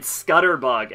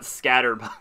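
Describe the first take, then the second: First: The first vowel sounds like the one in 'cut'. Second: The first vowel sounds like the one in 'cat'. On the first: The speaker calls it wrong. "I keep going it Scutterbug" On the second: The speaker calls it right. "and not Scatterbug"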